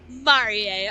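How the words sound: The name is said with a French pronunciation. "but it's French"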